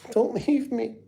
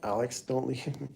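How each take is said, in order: First: Much higher, slow, laughing mock cry; mock whiny wail. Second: Said in the usual way. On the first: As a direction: whimper it like a big baby begging, half laughing. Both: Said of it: "you guys just wanna see me cry".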